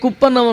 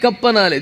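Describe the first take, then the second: First: The vowel is a rounded 'oo'-like sound. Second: The vowel is an open 'ah'-like sound. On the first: The speaker calls it wrong. "అడ్డగోలుగా చండాలంగా దరిద్రంగా ఉంటుంది" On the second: The speaker calls it right. "దీన్ని కప్పనాలి"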